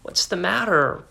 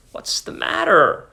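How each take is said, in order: First: Whispered, worried mutter. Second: Said in the usual way. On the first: A narrator's reading. Husband seeing wife cry, muttering in a whisper. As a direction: breathe it out under your breath. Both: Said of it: "he muttered".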